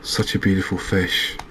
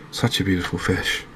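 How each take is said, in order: Both takes have the same delivery.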